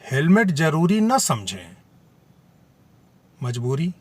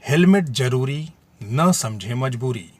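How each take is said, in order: First: There is a pause after 'samjhe'. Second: There is a pause after 'zaroori'. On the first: The helmet is not thought necessary but is a compulsion. "Helmet जरूरी न समझें, मजबूरी है" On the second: The helmet is necessary, not a compulsion. "Helmet को जरूरी बताया गया है और इसे मजबूरी न समझें"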